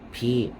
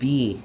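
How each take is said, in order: First: The syllable starts with a voiceless p-like sound. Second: The syllable starts with a clear voiced b sound. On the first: It is said the way a Korean speaker would. "kadugay transition na ako padung sa Korean" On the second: It is said the way a Bisaya speaker would. "ang akong pag-pronounce una is may pagkabisaya"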